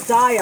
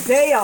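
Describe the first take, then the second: First: DYE-uh for Daiya, long I. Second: DAY-uh for Daiya, long A. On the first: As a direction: make Daiya begin like "die". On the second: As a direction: make Daiya begin like "day". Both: Real, not acted. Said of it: "I don't know how to say it".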